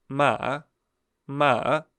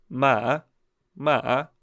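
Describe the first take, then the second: The two takes are said the same way.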